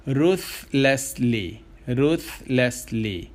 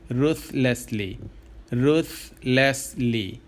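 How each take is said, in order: Both takes have the same delivery.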